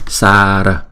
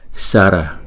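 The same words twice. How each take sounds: First: The first vowel is held long. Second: The first vowel is kept short. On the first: "Nếu có dấu gạch ngang trên đầu chúng ta sẽ đọc là" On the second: "Nó là chữ A ngắn"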